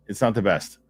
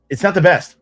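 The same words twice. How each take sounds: First: Said in the usual way. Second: "not" hit high and loud; emphatic. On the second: Shown as a demonstration. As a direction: blurt it out, higher and louder.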